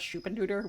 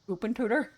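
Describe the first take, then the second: First: The word begins with an 'sh' sound. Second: The word begins with an 'sg' sound. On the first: "which it is completely not correct" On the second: "it's like an S G sound"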